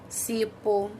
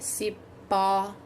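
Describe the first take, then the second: First: The final vowel is said without an open sound. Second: The final vowel is said with an open sound. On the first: The speaker calls it wrong. "Se eu não colocar o acento, ele fica" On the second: The speaker calls it right. "Ele é o som que eu deixo a boquinha aberta"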